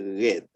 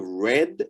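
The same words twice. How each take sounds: First: RED with a Creole R and wide-open vowel. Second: RED with an English R and short e. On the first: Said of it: "always open our mouth wide". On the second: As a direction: mimic the learner's English-sounding red. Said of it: "instead of red". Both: Shown as a demonstration.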